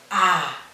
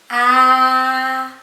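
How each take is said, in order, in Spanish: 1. La vocal se pronuncia con tono bajo. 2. La vocal se pronuncia con tono medio. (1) "Tono bajo" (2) "Tono medio"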